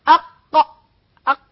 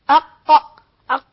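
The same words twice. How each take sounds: Both takes have the same delivery.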